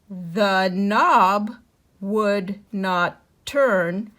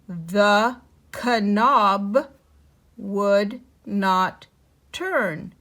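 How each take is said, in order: First: The K at the start of knob is silent. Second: The K at the start of knob is pronounced. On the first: The speaker calls it right. "let's read it with the K silent" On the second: The speaker calls it wrong. "read the this sentence out loud as if it were kn"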